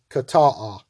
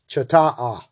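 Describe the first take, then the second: First: The word begins with a 'k' sound. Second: The word begins with a 'ch' sound. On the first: The speaker calls it right. "but it's kata'a" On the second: The speaker calls it wrong. "So it looks like it's chata'a"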